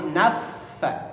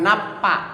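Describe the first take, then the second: First: The middle consonant is a doubled f sound. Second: The middle consonant is a p sound. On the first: The speaker calls it right. "tapi naffa" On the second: The speaker calls it wrong. "Jadi bukan napa"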